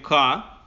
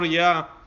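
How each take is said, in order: First: The name starts with a k sound. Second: The name starts with a y sound. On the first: The name is replaced outside a complete verse. "когда мы не говорим весь пасук, мы говорим «ка»" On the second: The name is said in full within a complete verse. "сказал его, как оно произносится"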